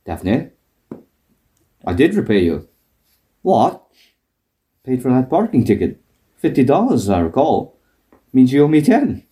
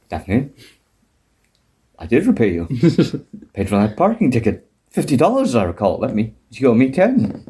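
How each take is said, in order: First: Frasier impression. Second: Low, lightly voiced Frasier; a mild put-on Frasier, lower pitch; Frasier impression. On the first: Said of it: "and then Fraser goes". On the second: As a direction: drop the voice low and prim for Frasier. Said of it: "I just like this".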